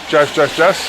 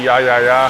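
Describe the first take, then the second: First: Each word starts with an English 'j' sound. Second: Each word starts with a 'y' sound. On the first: "I think that's how you say it" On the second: "in like German and Dutch and stuff"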